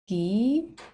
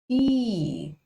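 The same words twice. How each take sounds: First: The vowel is long. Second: The vowel is long and strong. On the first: "The sound becomes long" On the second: "this vowel makes the sound long and strong"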